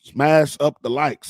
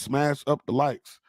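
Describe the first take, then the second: First: Pushy hype-man call with "smash" hit hard. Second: "smash up the likes" slowed right down, falling on "up". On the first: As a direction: hype the crowd, punching "smash". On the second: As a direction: lay it out slow and heavy. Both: Retold or imitated. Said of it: "like [name] would say".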